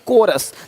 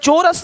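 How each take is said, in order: First: The word begins with a 'k' sound. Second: The word begins with a 'ch' sound. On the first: The speaker calls it right. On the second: The speaker calls it wrong. "चोरस नहीं"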